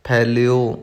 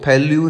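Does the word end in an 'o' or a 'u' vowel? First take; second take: o; u. First: The word ends in an open 'o' vowel. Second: The word ends in a closed 'u' vowel. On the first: The speaker calls it right. "उड़े का मुंह खुला होया है होड़ा" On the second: The speaker calls it wrong. "फैल्यू नहीं कहना"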